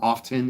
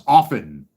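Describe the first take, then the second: First: The T sound is pronounced in the middle. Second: The T sound is silent in the middle. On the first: The speaker calls it wrong. "idiots that pronounce the word often" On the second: The speaker calls it right. "The T is silent"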